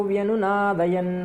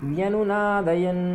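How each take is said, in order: The two takes are said the same way.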